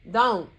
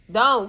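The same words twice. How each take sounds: First: A short, firm "Don't."; a low, clipped "Don't.". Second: "Don't." said louder and harder; "Don't." as a sharp command; a louder, final "Don't.". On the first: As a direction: cut him off with "Don't.". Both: Real, not acted.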